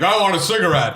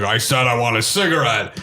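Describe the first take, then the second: First: Slightly raised, lightly acted demand; prisoner's demand. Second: Lower, lightly acted insistence; insistent repeat. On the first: Retelling Cage's first request to the guard, mild demand. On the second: Retelling Cage pressing the refusing guard, mildly insistent.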